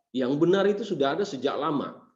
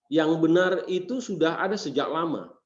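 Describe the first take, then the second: The two takes are said the same way.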